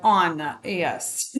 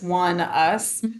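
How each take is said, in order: First: The name starts with an 'on' sound. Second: The name starts with a 'won' sound. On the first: The speaker calls it wrong. "I wanted to be like on yes" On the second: The speaker calls it right. "I looked it up that it's one us"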